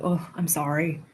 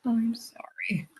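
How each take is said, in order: First: Said in the usual way. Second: Soft breathy whisper, slow; hushed condolence; whispered sympathy. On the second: Real, not acted. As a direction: breathe the sorry out gently. Sympathy repeated, second whispered.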